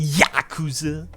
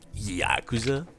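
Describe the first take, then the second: First: The word is pronounced in an exaggerated dub style. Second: The word is pronounced in a plain, ordinary way.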